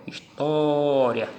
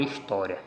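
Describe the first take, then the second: First: "História" with a long, held TÓ; slow "História", lingering on its tonic O; stressed syllable drawn out. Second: Said in the usual way. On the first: Shown as a demonstration. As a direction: stretch the TÓ in "História" to show the stress. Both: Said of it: "Quando eu encontro a sílaba tônica".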